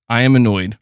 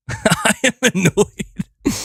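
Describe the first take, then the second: First: Said in the usual way. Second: Laughing through the words; slow, high and laughing. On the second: Real, not acted. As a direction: say it laughing at yourself.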